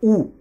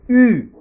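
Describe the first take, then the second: First: The vowel is a back 'oo' sound. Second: The vowel is a front rounded French 'u'. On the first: The speaker calls it wrong. "Je ne dis pas OU" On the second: The speaker calls it right. "C'est U"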